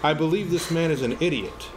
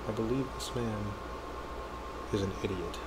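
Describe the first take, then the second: First: It is said aloud in a louder voice. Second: It is said in a hushed whisper.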